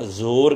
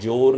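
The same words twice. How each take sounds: First: The word begins with a z sound. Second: The word begins with a j sound. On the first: The speaker calls it right. "ਜ਼ੋਰ ਕਹਿਣਾ ਹੈ" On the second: The speaker calls it wrong. "ਇੱਥੇ ਜ਼ੋਰ ਨਹੀਂ ਕਹਿਣਾ"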